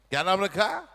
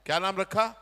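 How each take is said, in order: Both takes have the same delivery.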